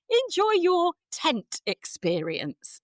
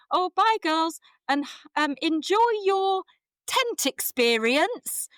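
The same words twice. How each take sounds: First: High, slow 'Enjoy your tent'; odd phrasing. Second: High, loud, very slow 'tent experience'; odd cheery goodbye. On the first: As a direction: draw out 'tent experience' awkwardly. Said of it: "it came out as". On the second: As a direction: sing it out oddly to the girls. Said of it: "looked at me like I was mad". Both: Retold or imitated.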